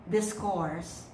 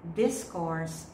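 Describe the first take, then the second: First: The stress is on the second syllable. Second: The stress is on the first syllable. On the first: The word is used as a verb. "discourse as a verb" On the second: The word is used as a noun. "discourse as a noun"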